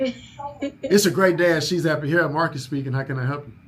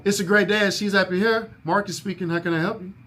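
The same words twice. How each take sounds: First: Masculine voice. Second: Lifted, bright greeting a bit higher; sing-song phone voice. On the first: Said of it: "let me try my masculine voice". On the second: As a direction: answer with a sunny lilt. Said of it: "why I made my voice sound like that". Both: Shown as a demonstration.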